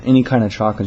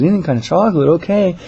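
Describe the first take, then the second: First: Said in the usual way. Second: High, louder repeat; manager humoring a caller. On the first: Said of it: "I guess he said". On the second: Retold or imitated. Manager confirming the caller's candy choice, high friendly voice. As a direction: echo it back brightly, pitched up. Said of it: "She goes".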